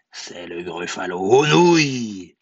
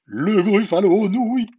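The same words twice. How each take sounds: First: Low start swelling on "nouilles"; menacing mouse. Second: High, loud, wavering scream; cried out. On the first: Acted. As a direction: draw out "nouilles" as a loud threat. Mouse threatens to eat gruffalo. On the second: A narrator's reading. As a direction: shriek it as the terrified gruffalo. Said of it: "cria le gruffalo".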